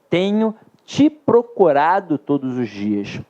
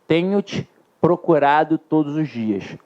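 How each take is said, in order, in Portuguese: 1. O 'te' fica ligado à palavra seguinte. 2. O 'te' fica ligado à palavra anterior. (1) "Sem o hífen, ... vai ser um processo de próclise em relação ao verbo principal" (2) "Com o hífen, ... seja o da ênclise, em relação ao verbo ter"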